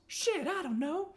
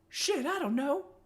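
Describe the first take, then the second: First: It is spoken in a neutral accent. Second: It is spoken in a Southern US accent.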